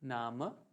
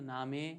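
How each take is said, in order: First: The final e is a weak, short vowel. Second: The final e is a clear 'ay' vowel. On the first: The speaker calls it right. "नहीं। नाम" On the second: The speaker calls it wrong. "मैंने ऐसे नहीं बोला"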